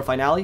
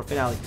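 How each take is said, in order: First: Finale said the speaker's own way; own accent's Finale. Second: Finale in the alternative pronunciation; other accent's Finale. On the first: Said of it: "My accent suits more Finale". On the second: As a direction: say Finale as the listener's accent would. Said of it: "Your accent might suit more Finale". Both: Shown as a demonstration.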